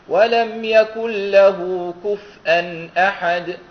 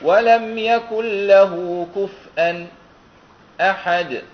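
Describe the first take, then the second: First: The hamza is pronounced fully with a clear glottal stop. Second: A brief silent pause comes before the hamza. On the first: "بالتحقيق" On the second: "بالسكت"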